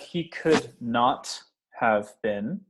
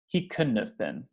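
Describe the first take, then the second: First: Could and not are said as separate full words. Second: Could and not are joined into one contracted word. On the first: The speaker calls it wrong. "instead of" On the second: The speaker calls it right. "most naturally, we'll say"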